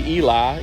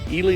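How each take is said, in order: First: The name is said the outsider's way. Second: The name is said the local way. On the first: This is how a visitor would read the name. The speaker calls it wrong. "I'd say Eli" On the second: This is how people in the town say it. The speaker calls it right. "but they pronounce it Ely"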